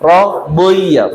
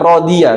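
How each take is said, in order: First: The consonant sounds heavy with a thick vowel. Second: The consonant sounds light with a thin vowel. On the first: The speaker calls it right. "tapi rodeiya" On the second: The speaker calls it wrong. "bukan rodia"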